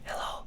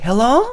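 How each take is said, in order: First: It is said in a whisper. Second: It is said aloud in full voice.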